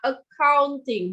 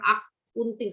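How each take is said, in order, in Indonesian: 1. Diucapkan dengan bunyi Inggris. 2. Diucapkan dengan bunyi Indonesia. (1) "Bacanya accounting" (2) "bukan akunting. Kalau akunting itu versi Indonesianya"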